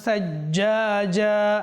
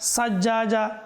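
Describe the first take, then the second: First: The word begins with a th sound. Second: The word begins with an s sound. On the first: The speaker calls it right. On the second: The speaker calls it wrong.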